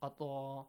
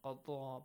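First: The middle consonant sounds like a doubled d. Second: The same.

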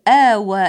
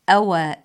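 First: The first vowel is long and drawn out. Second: The first vowel is short and clipped. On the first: The speaker calls it wrong. "بمد همزة أوى" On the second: The speaker calls it right. "من دون مد الهمزة"

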